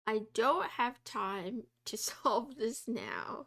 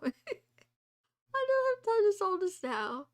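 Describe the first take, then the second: First: Said in the usual way. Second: Laughing, higher and louder; a higher, louder repeat broken by laughter. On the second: Real, not acted. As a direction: laugh it out in mock despair.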